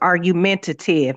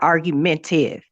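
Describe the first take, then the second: First: The word is said with all five syllables. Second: The word is said with a syllable dropped. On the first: The speaker calls it right. "It's argumentative" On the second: The speaker calls it wrong. "not argumentive"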